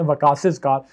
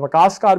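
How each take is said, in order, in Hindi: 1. नाम के बाद एक अतिरिक्त 'iz' सिलेबल आता है। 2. नाम के बाद कोई अतिरिक्त सिलेबल नहीं आता।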